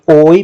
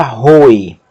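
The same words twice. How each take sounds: First: "oi" with no h at the start; slow, bare vowel glide "oi"; unaspirated diphthong. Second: "roi" begun with a strong h; slow "roi" with rough breathing at the onset; aspirated diphthong. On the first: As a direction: start "oi" straight on the vowel, gliding to i. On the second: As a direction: breathe an h before the glide in "roi", as "hoi". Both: Shown as a demonstration. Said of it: "Aspiração forte altera o som do ditongo".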